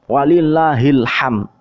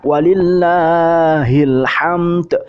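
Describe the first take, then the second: First: The final d is left out. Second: The final d is clearly pronounced. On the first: The speaker calls it wrong. "Tidak ada dalnya" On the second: The speaker calls it right. "ada d-nya itu"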